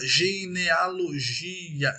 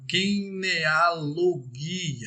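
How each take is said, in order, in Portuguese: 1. Começa com um som 'zh' suave. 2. Começa com um som 'g' forte.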